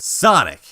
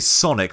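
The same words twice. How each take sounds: First: The word is said with an American accent. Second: The word is said with a British accent. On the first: "rather than" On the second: "you can tell that there are British people in there because they say Sonic"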